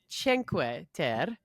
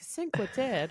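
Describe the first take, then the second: First: The name is said in an Italian way. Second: The name is said in an anglicized way. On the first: The speaker calls it right. "but it's" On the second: The speaker calls it wrong. "I pronounced it so wrong"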